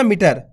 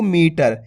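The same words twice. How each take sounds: First: मीटर with a short i, like मिटर; hurried मीटर, first syllable not stretched; quick short vowel. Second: मीटर with the ee held long; मीटर said with a long first vowel; drawn-out long vowel. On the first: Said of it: "ऐसे नहीं पढ़ना". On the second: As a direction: stretch मी, then finish टर in मीटर. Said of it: "इसी प्रकार से पढ़ना आपको". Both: Shown as a demonstration.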